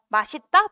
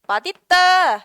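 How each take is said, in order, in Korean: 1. 가운데 자음은 s 소리로 발음해. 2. 가운데 자음은 d 소리로 발음해. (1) "허용이야" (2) "이게 원칙 발음이야"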